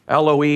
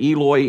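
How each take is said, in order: First: The word has a Hebrew-style pronunciation. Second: The word has an anglicized, English-style pronunciation. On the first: "if you were to speak it in the Hebrew" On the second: "some read it"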